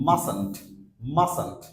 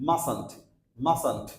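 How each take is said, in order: No difference in how they are said.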